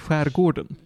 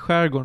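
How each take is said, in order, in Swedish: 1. Varje stavelse i ordet uttalas fullt ut. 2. Ordet uttalas i en förkortad, reducerad form. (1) "de uttalar hela ordet" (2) "säger inte skärgården"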